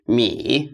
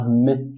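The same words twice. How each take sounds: First: MI drawn out as "mee"; long ee. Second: M as a short "mih"; short vowel M. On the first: Teacher spelling it for learners, MI as long "mee". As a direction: say MI with a long ee, dipping tone. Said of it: "M E E". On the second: Teacher showing learners the wrong sound, M as short "mih". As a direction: say M clipped to "mih", without the long ee. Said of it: "this is not m". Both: Shown as a demonstration.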